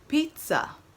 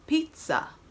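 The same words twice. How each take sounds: First: The middle consonant is a T-like sound. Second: The middle consonant is a T-like sound.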